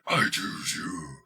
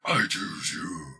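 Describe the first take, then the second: First: It is said in a deep, demonic voice. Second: The same.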